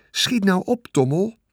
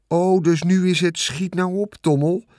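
First: Much higher, pressing hurry; urgent plea. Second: Sarcastic mimicry of "schiet nou op", lightly voiced; mocking Wilbur. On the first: Acted. Wilbur urging the rat to hurry, anxious and pressing. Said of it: "zei Wilbur". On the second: The rat mocking Wilbur's plea to hurry, sarcastic mimicry. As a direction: parrot the pig's plea mockingly. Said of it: "Hij begon Wilbur na te praten".

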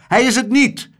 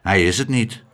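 First: Hoge, luide tegenspraak; roepend. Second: Said in the usual way. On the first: A narrator's reading. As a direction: roep het fel terug. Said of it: "riep meneer". (luid en hoog ontkennen) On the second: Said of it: "zei hij toen".

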